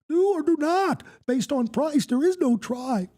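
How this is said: It is said in a put-on character voice.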